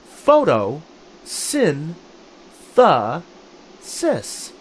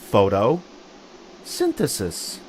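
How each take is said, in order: First: It is split into separate syllables with pauses. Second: It is said faster in two parts. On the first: "Say it with me" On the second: "Say it with me a little faster"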